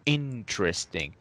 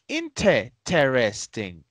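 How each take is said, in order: First: The t runs straight into the r. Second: A vowel is pronounced between the t and r. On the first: The speaker calls it right. "We say intr with the R already. T R" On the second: The speaker calls it wrong. "some students say interesting, interesting, inte"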